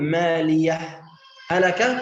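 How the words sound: A short pause separates the two words. "السكت"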